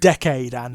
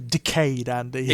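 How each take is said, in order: First: The first word sounds like the word decade. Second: The first word sounds like the word decayed. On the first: The name refers to a period of ten years. "it's like decade Andy" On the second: The name refers to something rotting. "as opposed to decayed Andy"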